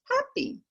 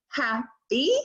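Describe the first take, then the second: First: Put-on "Happy" blended in a high little-child voice; imitating a toddler. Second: "Happy" said as separate syllables hap, py; syllables split apart. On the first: Grandson blends the syllables back, high toddler voice. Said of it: "and he says". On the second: Shown as a demonstration. Grandmother giving her grandson syllables to blend, split apart. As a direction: split "Happy" into its two beats. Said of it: "and I say with, to him".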